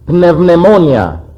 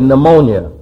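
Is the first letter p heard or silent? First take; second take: heard; silent. First: The initial p is pronounced. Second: The initial p is silent. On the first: This is the Greek way of saying it. "In Greek, you would say pneumonia" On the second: This is the English way of saying it. "In English, you say pneumonia"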